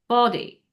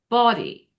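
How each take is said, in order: No difference in how they are said.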